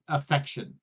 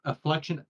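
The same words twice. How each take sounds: First: Affection with no L, clean uh-FEK-shun; corrected pronunciation. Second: Afflection said with an L after the a, uh-FLEK-shun; mispronounced with an extra L. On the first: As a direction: fix it: Affection, drop the L. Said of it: "A F F E C T?". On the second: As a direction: try the wrong version: afflection, with the L sound. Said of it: "Or is it a". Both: Shown as a demonstration.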